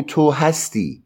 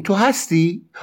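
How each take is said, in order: First: Said in the usual way. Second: "تو هستی" lifted higher as a question; questioning tune. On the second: Shown as a demonstration. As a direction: ask "تو هستی", keeping the voice up. (لحن سوالی «تو هستی») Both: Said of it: "آیا تو هستی؟".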